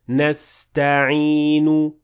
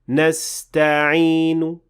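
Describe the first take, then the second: First: The final vowel is fully and clearly pronounced. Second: The final vowel is barely audible, very short. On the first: "Now this is a full dhamma" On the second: "there is a very slight dhamma at the end of the word"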